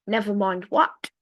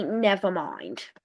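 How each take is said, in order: First: "never mind what" rising at the end; questioning echo. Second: Low, dropping "never mind"; acted retraction. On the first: Acted. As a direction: query it as the puzzled colonists. Colonists query the retraction. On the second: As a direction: withdraw "never mind" with a lowered voice. Government retracts in acted dialogue.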